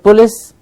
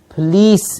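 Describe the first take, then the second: First: The second syllable has a short vowel. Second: The second syllable has a long E vowel. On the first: The speaker calls it wrong. "It's not" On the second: The speaker calls it right. "It's a long E sound"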